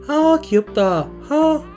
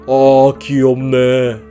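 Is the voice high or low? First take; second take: high; low. First: It is said in a lighter, higher voice. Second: It is said in a thick, low voice.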